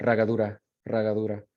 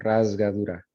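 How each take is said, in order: First: Chilean way, "ragadura" said with the s dropped. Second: Said in the usual way. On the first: Shown as a demonstration. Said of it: "Or if you're in Chile, you just cut it out". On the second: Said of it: "So that's a Z because it comes before a voice sound".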